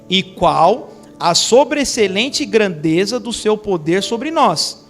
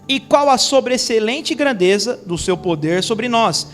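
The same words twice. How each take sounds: First: It is read at a slower, more careful pace. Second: It is read at a normal, quicker pace.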